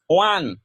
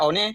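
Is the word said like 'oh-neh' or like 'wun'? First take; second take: wun; oh-neh. First: It is said with an English 'wun' sound. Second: It is said letter by letter as 'oh-neh'. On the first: The speaker calls it right. "kita akan membaca one. Itu yang benar" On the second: The speaker calls it wrong. "Masa tulisannya one kita baca one?"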